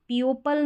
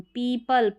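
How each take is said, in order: First: पियोपल said as pee-yo-pul, sounding out the o; wrong pronunciation. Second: पीपल said clearly as pee-pul with a long ee and no o sound; correct pronunciation. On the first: Teacher showing students the wrong reading, pee-yo-pul. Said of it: "नहीं बोलते". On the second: Teacher showing students the right way, clear pee-pul. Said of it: "पी ई आता है यहाँ पर ई ओ का sound". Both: Shown as a demonstration.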